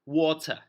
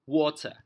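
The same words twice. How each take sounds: The two takes are said the same way.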